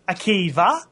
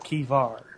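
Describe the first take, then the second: First: The name ends on a plain vowel, no R. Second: The name ends with an added R sound. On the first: "either saying Akiva or Akivar" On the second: "I draw an R on the end"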